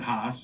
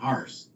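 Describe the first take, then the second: First: The name is said without any R sound. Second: The name is said with an added R sound. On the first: This is the German way of saying it. "the name's German" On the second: This is how it was said in Scotland. "they put the R in everything"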